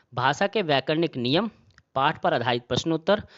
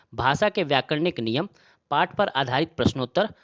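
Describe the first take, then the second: No difference in how they are said.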